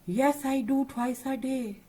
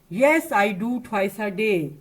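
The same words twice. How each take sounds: First: It is said quietly. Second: It is said really loudly.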